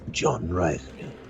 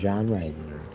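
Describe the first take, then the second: First: It is said in a dramatic, cool trailer voice. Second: It is said in a plain, ordinary voice.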